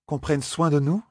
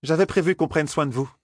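First: "Qu'on prenne soin de nous" high, rising at the end; questioning echo. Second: High-pitched character voice, falling statement; matter-of-fact Aes Sedai. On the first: A narrator's reading. Companion querying the Aes Sedai's words, "Qu'on prenne soin de nous" as questioning echo. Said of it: "répéta Elaine". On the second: Acted. Aes Sedai telling intruders of her plan, high matter-of-fact statement. Statement later echoed as question.

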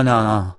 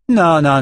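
First: Said in the usual way. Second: High, loud, emphatic non; loud high-pitched non, non; loud insistence. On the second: A narrator's reading. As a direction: cut him off hard. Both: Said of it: "répéta Nietzsche".

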